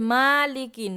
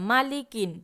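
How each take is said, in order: First: The first vowel is drawn out long. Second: The first vowel is said short and quick. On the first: The speaker calls it wrong. "টেনে বলে তো নাকি পড়েন যে মালিকিন, মা টান হবে না" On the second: The speaker calls it right. "হরকতের উচ্চারণ তাড়াতাড়ি করে পড়িতে হয়"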